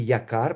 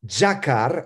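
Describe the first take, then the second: First: The word begins with a 'y' sound. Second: The word begins with a 'j' sound. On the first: It makes the wordplay impossible. The speaker calls it wrong. "а не якар, потому что то игра слова невозможно" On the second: It makes the wordplay possible. The speaker calls it right. "Джакар, а не якар"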